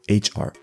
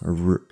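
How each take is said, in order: First: The R starts with a breathy, throaty friction. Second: The R is a plain, smooth sound. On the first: The speaker calls it right. "it's H R" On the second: The speaker calls it wrong. "instead of just r"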